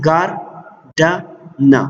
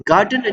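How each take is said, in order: First: ګارډنه very slowly as gar, da, na with pauses; syllable by syllable. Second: Said in the usual way. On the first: Shown as a demonstration. Teacher counting syllables for learners, ګارډنه said syllable by syllable. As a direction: break ګارډنه into three spaced beats. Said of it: "three vowel sounds". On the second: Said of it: "چې کوم زموږ سره ورډ دی".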